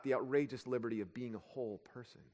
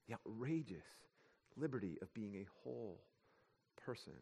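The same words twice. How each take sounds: First: Said in the usual way. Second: Much softer, each word set apart; slow hushed repeat. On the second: Shown as a demonstration. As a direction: let it sink in, almost a breath.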